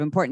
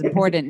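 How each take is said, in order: First: It is said with a standard accent. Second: It is said with a Midwestern accent. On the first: "instead of important" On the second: "how she says she's in the Midwest"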